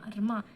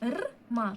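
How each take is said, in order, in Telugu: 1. శబ్దాలు వేగంగా, ఒకే అక్షరంగా అంటారు. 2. శబ్దాలు నెమ్మదిగా, విడివిడిగా అంటారు.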